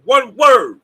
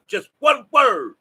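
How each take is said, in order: First: Loud, punching out "one word"; shouted emphasis. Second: "one" hit hard and drawn out, slow; stress on ONE. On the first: Preaching to his viewers with a loud shout. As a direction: drive the point home with a shout. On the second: Preaching to his viewers, slow stress on "one". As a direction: land heavily on "one", slowly. Repeating one word for emphasis. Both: Real, not acted.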